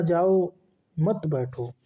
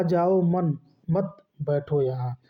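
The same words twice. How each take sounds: First: जाओ alone, break, then मत बैठो together; group मत with बैठो after a clear pause. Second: जाओ मन, मत run together, break, then बैठो यहाँ; group मत with जाओ, pause before बैठो; pause after मत. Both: Shown as a demonstration. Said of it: "उच्चारण के कारण श्रोता".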